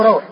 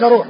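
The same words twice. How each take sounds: First: روح said RAWH, aw glide; روح with open a sliding into w; correct fatha form. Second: روح said ROOH, long u; روح with pure u vowel; rejected damma form. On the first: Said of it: "وإنما هو روح". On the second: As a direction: say the first روح as ruuh. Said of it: "وهو ليس روح". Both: Shown as a demonstration.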